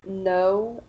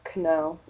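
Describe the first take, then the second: First: The word starts with an N sound, no K. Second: The word starts with a K sound. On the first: The speaker calls it right. "The K is not pronounced in no" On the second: The speaker calls it wrong. "you might hear them say Kno"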